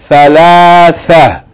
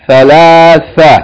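No difference in how they are said.

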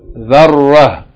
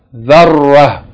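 No difference in how they are said.

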